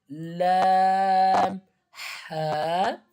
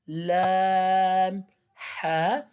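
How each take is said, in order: Both takes have the same delivery.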